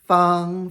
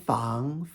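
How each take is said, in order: First: The pitch stays high and level. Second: The pitch rises from middle to high.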